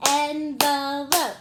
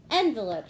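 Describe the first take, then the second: First: "Envelope" slow and loud as en-ve-lope; clapped-out syllables. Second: Said in the usual way. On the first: Shown as a demonstration. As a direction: chant "Envelope" in three loud, drawn-out beats. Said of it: "Let's clap it out".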